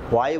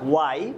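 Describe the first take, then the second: First: The word begins with a breathy h sound. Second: The word begins with a plain w sound. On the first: The speaker calls it wrong. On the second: The speaker calls it right.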